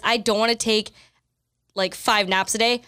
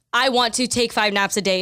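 First: Said in the usual way. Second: "want" said straight with no "don't"; brain's version. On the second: Shown as a demonstration. Explaining how the brain drops the negative, stated flatly. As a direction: state "I want to take five naps a day" flatly, as the brain hears it. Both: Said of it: "is what your brain is actually saying".

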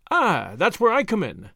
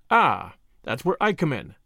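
First: Banging a fist on the table as he claims the job; eager cry. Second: Said in the usual way. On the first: A narrator's reading. Julius offering his money to the lawyer, eager cry. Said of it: "cried Julius".

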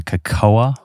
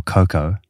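First: Cocoa said kuh-KOH-uh; "cocoa" as kuh-KOH-uh, stress in the middle; alternative pronunciation. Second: Cocoa said KOH-koh; "cocoa" as KOH-koh, stress up front; alternative pronunciation. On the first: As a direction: say "cocoa" in three syllables, A sounded at the end. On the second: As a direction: say "cocoa" in two syllables, no final A. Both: Shown as a demonstration. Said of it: "How do you say it?".

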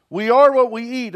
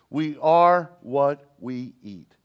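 First: "We are what we eat" raised and louder, stress on "are"; louder, higher repeat. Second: "We are what we eat" drawn out very slowly, stress on "are"; slow weighty repeat. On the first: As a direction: push the repeat up with force on "are". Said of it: "Do you know that?". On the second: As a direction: let each word land slowly. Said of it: "the same thing is true". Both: Shown as a demonstration.

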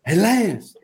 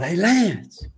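First: Retold sideline yell, higher. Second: Retold sideline yell. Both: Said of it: "And I yelled".

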